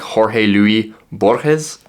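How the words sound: The name is pronounced the Spanish way. "a native Spanish speaker... You would say it's something like"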